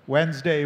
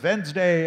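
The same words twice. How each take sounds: First: The word begins with a W sound. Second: The word begins with a V sound.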